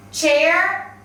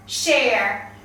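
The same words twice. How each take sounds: First: "chair" with a clear CH stop at the start; careful model "chair", CH not SH; CH sound. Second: "share" with a smooth SH at the start; careful model "share", SH not CH; SH sound. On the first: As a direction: start "chair" on a crisp tch. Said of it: "students will confuse C H". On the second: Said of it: "and S H". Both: Shown as a demonstration.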